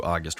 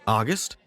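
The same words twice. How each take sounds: First: Said in the usual way. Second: "August?" rising like a question. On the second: A narrator's reading. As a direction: say "August?" as an unsure question, pitch climbing at the end. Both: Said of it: "I say it like a question".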